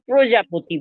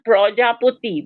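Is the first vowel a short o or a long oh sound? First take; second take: short o; long oh. First: The first syllable has a plain short vowel. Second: The first syllable has a rounded oh vowel. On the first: The speaker calls it right. "যেমন প্রজাপতি বলি" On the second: The speaker calls it wrong. "অনেক বাচ্চা পয় রফলা ওকার দিয়ে দেয়। সেটা নয়।"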